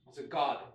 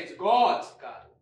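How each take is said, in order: First: Said in the usual way. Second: GOD'S said loud, with a falling tune; grand declaration. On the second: Acted. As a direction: proclaim it like a revelation. Tiger builds up garden.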